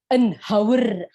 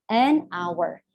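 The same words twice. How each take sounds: First: "hour" with an audible H, like "how-er"; wrong pronunciation, H sounded. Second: "an hour" slowly, "hour" starting on the vowel like "our"; silent H. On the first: Teacher showing how not to say hour, H pronounced. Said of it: "Kan kamu ngucapinnya bukan". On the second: Teacher giving students the correct form, H silent. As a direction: drop the H in "hour", linking "an" to "our". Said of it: "tapi kan dibacanya hour". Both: Shown as a demonstration.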